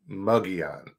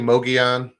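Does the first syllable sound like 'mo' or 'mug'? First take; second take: mug; mo. First: The first syllable sounds like 'mug'. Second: The first syllable sounds like 'mo'. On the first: "Some say Mogollon, like M-U-G" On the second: "I say Mogollon"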